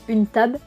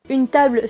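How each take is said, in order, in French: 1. La finale 'ble' perd son L. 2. La finale 'ble' garde son L.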